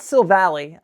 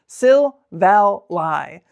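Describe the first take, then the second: First: The name ends with a "lee" sound. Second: The name ends with a "lie" sound. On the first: The speaker calls it wrong. "It's not Sil Valley. I used to say Sil Valley" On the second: The speaker calls it right. "It's Sil, Val, Lie"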